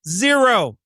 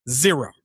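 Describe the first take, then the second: First: ZERO pitched up and punched; emphatic zero. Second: Said in the usual way. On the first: Shown as a demonstration. Correcting weak takes for listeners, emphatic high ZERO. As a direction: hit ZERO hard, with a high falling tune. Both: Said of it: "Not too weak".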